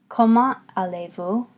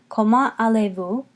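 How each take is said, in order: No difference in how they are said.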